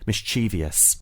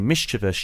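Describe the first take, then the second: First: It is said with four syllables. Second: It is said with three syllables. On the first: This is how younger speakers say it. "younger te- speakers tend to say" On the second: This is how older speakers say it. "Older speakers tend to say"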